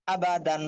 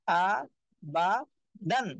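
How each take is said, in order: First: আ বা দান run together as one word; joined-up reading. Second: আ, বা, দান one by one with clear gaps; broken-up syllables. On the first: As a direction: read আ বা দান straight through without gaps. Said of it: "reading". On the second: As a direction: pause after each of আ, বা and দান. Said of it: "একটা একটা করে পড়বেন". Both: Shown as a demonstration.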